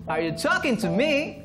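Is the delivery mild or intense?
mild. It is said with milder emotion.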